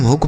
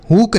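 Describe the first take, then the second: First: हुक with a short u as in put; हुक said correctly with a short u; correct pronunciation. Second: हुक with a long oo as in boot; हुक mispronounced with a long oo; wrong pronunciation. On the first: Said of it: "इसे हम हुक पढ़ते हैं". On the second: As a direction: say हुक stretching the vowel to a long oo. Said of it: "हुक नहीं पढ़ते हैं बच्चों". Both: Shown as a demonstration.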